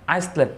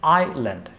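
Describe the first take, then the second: First: An s sound is heard before the l. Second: No s sound is heard before the l. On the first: The speaker calls it wrong. "আইসল্যান্ড না" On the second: The speaker calls it right. "উচ্চারণ হচ্ছে আইল্যান্ড"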